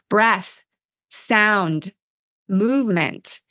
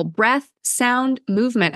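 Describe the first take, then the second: First: Breath, sound, movement spoken slowly with pauses between; slowed down. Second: Said in the usual way. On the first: Shown as a demonstration. Host slows down to stress the three basics. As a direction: give each word its own beat and let it land. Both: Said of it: "I just wanna slow that down".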